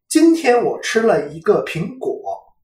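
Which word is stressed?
苹果. The word 苹果 carries the stress. What was eaten today was an apple, not something else. "表示的是我今天吃的是苹果，而不是别的什么东西"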